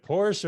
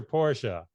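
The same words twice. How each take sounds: First: "Porsche" as one syllable, PORSH; "Porsche" ending right on the sh. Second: "Porsche" as two syllables, POR-shuh; "Porsche" said like "Porsha". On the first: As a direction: say "Porsche" with a silent final e. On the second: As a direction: sound the final e of "Porsche" as "uh". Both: Acted. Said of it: "Is it Porsche or Porsche".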